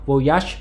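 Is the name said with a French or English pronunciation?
French. The name is pronounced the French way. "tiếng Pháp đọc là Voyage"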